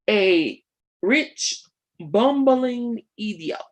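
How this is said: It is spoken in a Jamaican accent. "my um, poor attempt at a Jamaican accent"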